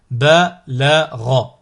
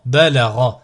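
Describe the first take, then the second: First: Slow, each syllable drawn out separately; split into syllables. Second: Syllables joined as one word. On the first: Teacher models a word for learners to repeat, split into syllables. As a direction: cut the word up, pausing between syllables. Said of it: "décomposer le mot". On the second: Teacher models a word for learners to repeat, joined in one go. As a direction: run the syllables together without pauses. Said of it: "le mot attaché". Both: Shown as a demonstration.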